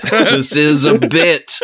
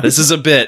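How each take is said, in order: First: Slow, emphatic. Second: Laughing. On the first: Shown as a demonstration. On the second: Real, not acted.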